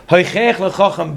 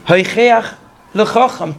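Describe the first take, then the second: First: Said in the usual way. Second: "Hoichech" raised, a pause, then "lechacham"; phrased re-reading. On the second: Shown as a demonstration. Teacher re-parsing the verse, deliberately split before "lechacham". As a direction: lift "Hoichech" and set "lechacham" apart.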